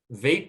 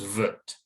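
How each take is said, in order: First: The syllable has a full long A vowel. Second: The syllable has a reduced schwa vowel. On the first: The speaker calls it wrong. "Vate would be the second syllable if it were stressed" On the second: The speaker calls it right. "Vate becomes vut"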